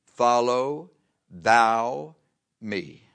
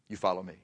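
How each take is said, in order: First: "Follow thou me" stretched very slowly, word by word; solemn, drawn-out command. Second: Said in the usual way. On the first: Acted. The Lord answering Peter, "Follow thou me" as a slow solemn command. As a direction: give "Follow", "thou" and "me" each their own weight, with pauses. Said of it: "He said this". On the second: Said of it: "That's what he told him".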